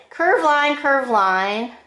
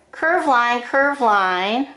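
Both takes have the same delivery.

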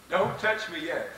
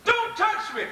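First: Said in the usual way. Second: "Don't touch me" jumps high, urgent; urgent warning. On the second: Acted. Jesus stopping Mary from grasping him, urgent high warning. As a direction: pitch it up as a sharp urgent warning.

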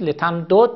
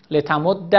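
First: لتمدد with both dals sounded separately; unassimilated form. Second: لتمد with a doubled dal ending in short a; assimilated, fatha ending. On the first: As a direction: say لتمدد unmerged, ending on a still dal. (لتمدد بدون ادغام، با دو دال جدا) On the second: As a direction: merge the dals of لتمد and close on -dda. (لتمد با دال مشدد و فتحه) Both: Shown as a demonstration.

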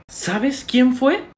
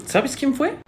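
First: Very slow, high, drawn-out question; insistent question. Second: High-pitched, rising question; eager question. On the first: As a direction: stretch it out, pressing for an answer. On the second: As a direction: ask hopefully, pitched up. First asking for the culprit. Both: Acted.

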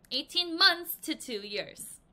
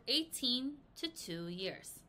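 First: Months stressed, slow and louder; corrected reading. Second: Said in the usual way. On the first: Shown as a demonstration. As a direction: fix the slip firmly, stressing "months".

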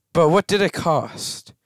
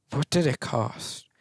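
First: Said in the usual way. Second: Much softer, hushed repeat; softer Thanos-style musing; quiet dramatic echo. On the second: Shown as a demonstration. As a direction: let it fall away softly like a movie line.

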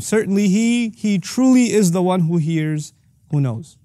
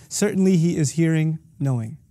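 First: "he truly" raised and drawn out; emphatic. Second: Said in the usual way. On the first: Shown as a demonstration. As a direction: lean hard on "truly", then settle on "who knows". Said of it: "There's an emphatic nature here". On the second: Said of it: "not nearly as intensely in the other".

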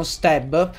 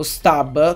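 First: "stab" said with an E vowel, "steb"; alternative pronunciation. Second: "stab" said with an open A, as spelt; alternative pronunciation. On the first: ("stab" pronunciato "steb") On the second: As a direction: say "stab" the Italian way, with A. ("stab" pronunciato con la A, com'è scritto) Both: Shown as a demonstration. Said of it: "come si voglia pronunciare".

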